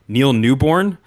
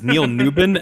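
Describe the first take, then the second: First: The surname ends with a 'born' sound. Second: The surname ends with a 'bin' sound. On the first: The speaker calls it wrong. "I'm sorry that I kept saying Neil Newborn" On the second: The speaker calls it right. "it is Neil Newbin"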